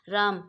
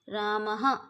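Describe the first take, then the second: First: The word ends plainly, with no h sound. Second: The word ends with a short breathy h sound. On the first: "अगर विसर्ग नहीं होंगे तो हम पढ़ेंगे इसको राम" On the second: "इसके पीछे लगा देंगे विसर्ग तो हम इसको क्या पढ़ेंगे"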